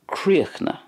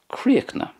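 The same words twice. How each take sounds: First: The ending is cut short and silent. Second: The same.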